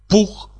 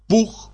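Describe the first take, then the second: The two takes are said the same way.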